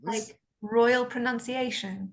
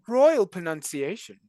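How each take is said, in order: First: Put-on RP accent. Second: Posh English RP, slow; careful received pronunciation; RP accent. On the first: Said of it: "a good R P accent". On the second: Acted. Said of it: "R P?".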